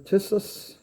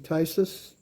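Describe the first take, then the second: First: The first vowel is a short I sound. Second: The first vowel is a long I sound. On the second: "I would think it's long, so it would be"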